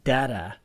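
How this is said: The word is said with an American pronunciation.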